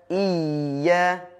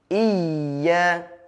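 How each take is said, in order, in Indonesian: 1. Bunyi y dirangkap dan ditekan. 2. Bunyi y dirangkap dan ditekan.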